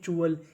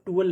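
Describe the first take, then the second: First: It begins with a 'ch' sound. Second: It begins with a plain 't' sound. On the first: The speaker calls it right. "हम लोग टी U A L को पढ़ते हैं चूअल" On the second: The speaker calls it wrong. "इसे हम लोग टूअल नहीं पढ़ते"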